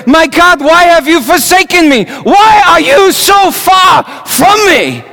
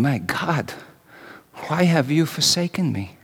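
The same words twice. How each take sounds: First: Anguished shout, much higher and louder, slowing at the end; crying out to God. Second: A scream held inside, said much softer; silent inner scream. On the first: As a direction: cry it out to the heavens. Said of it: "crying out to him". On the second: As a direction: pour out anguish almost under the breath. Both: Retold or imitated.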